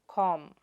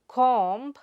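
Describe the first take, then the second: First: The final b sound is silent. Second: The final b sound is pronounced. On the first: The speaker calls it right. "but comb" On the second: The speaker calls it wrong. "and comb"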